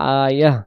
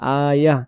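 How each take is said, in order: First: The word ends with a soft h sound. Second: The same.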